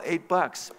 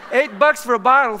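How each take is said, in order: First: Said in the usual way. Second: High, loud comic disbelief; outraged repeat. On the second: Acted. Shopper reacting to the clerk's bottle price, loud comic outrage. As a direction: throw the price back, scandalized.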